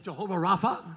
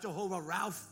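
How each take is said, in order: First: The last word has two syllables, ending in -pha. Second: The last word is one syllable, like Ralph. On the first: The speaker calls it right. "it's Jehovah Rapha" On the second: The speaker calls it wrong. "it's not Jehovah Ralph"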